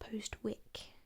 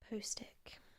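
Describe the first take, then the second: First: The W is sounded, giving Post-wick. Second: The W is silent, giving Postic. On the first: The speaker calls it wrong. "a lot of you probably assumed that it's pronounced Postwick" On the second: The speaker calls it right. "we don't actually pronounce the W in place names"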